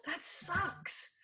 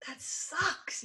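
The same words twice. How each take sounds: First: Soft, sympathetic "That sucks.". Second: Said in the usual way. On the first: Shown as a demonstration. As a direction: say "That sucks." softly and gently, like to a friend. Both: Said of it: "if that's the way you would say that, say that".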